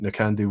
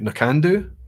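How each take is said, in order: First: The second syllable is stressed. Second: The second syllable is not stressed. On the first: "exaggerating the second syllable" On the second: "Some people pronounce uh"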